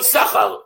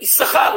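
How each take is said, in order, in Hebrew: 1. ההטעמה נופלת לפני ההברה האחרונה. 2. ההטעמה נופלת על ההברה האחרונה. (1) "לא יששכר"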